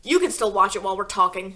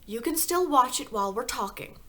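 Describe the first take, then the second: First: Mr Wormwood voice. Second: Light higher voice, not the husband's; wrong character voice. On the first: Husband telling his wife to keep watching, loud and gruff. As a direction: correct it to the gruff father. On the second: Narrator voicing the husband in the wrong voice by mistake. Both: A narrator's reading. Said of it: "wrong voice".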